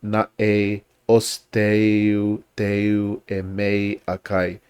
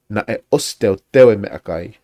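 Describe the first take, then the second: First: The e vowel glides off at the end. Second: The e vowel stays short and steady. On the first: The speaker calls it wrong. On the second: The speaker calls it right.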